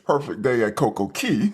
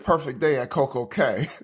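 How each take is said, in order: First: The last word sounds like key. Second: The last word rhymes with day. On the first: "insists it's Perfect Day at Coco Key" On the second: "I say Perfect Day at Coco Cay"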